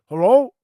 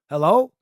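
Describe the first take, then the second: First: It is said in a muffled voice. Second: It is said in a clear voice.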